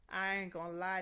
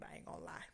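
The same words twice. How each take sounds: First: "I ain't gonna lie" said louder and stronger; emphatic repeat. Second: Said in the usual way. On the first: Real, not acted. Admitting to viewers the test was hard, emphatic and louder. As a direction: hammer it home louder.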